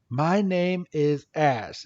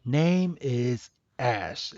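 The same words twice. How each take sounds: First: Slow, drawn-out self-introduction; Ash. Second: Very slow, soft halting echo; Coco. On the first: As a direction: spell it out slowly for a newcomer. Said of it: "Ash is like". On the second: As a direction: repeat it like someone learning to speak. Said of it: "freaking Coco's like". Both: Retold or imitated.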